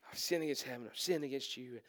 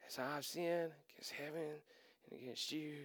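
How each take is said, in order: First: Rushed, soft and lower, with a nervous laugh at the start; nervous blurted confession. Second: Much softer and lower, muttering the rehearsed confession to himself; rehearsing under his breath. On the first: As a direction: get the rehearsed speech out fast before you lose your nerve. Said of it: "And he said". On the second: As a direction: practise the line quietly, as if nobody should hear. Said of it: "let me go over this one more time". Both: Retold or imitated.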